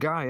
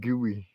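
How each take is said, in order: First: The name is said in one syllable, like 'guy'. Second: The name is said in two syllables, like 'gooey'. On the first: This is how strangers read the name. "the receptionist is going to shout "Guy," ... Because that's how it looks" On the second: This is how the parents intend the name. "They pronounce it gooey"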